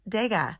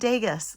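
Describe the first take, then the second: First: The name ends without an s sound. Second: The name ends with an s sound. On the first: The speaker calls it right. "I now can pronounce Dega" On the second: The speaker calls it wrong. "I was saying Degas, like Vegas"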